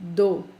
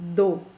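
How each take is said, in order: No difference in how they are said.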